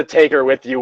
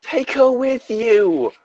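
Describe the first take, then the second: First: Said in the usual way. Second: Very high, drawn-out redhead voice; fiery redhead. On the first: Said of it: "was meant to be that". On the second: Acted. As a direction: plead high and slow as the redhead. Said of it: "a fiery redhead".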